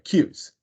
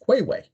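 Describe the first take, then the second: First: The word is said with one syllable. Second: The word is said with two syllables. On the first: The speaker calls it right. "when I said cues, they said, "Oh, is that how you pronounce that?"" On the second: The speaker calls it wrong. "What did you think it was? And they said, "Quayway.""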